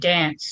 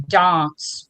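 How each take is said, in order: First: It is said with an Australian-style vowel. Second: It is said with an English-style vowel. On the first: "but I say dance" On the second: "they'll say dance"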